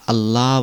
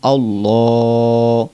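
First: The l sound is light and thin. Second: The l sound is heavy and thick. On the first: The speaker calls it wrong. "আল্লাহ বললে হবে না" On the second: The speaker calls it right. "লামটাকে মোটা করে বলতে হবে"

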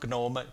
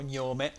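First: The word is pronounced the English way. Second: The word is pronounced the Italian way. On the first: This is how English speakers say it. "in inglese dicono GNOME" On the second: This is how some other people say it. "alcuni dicono Gnome"

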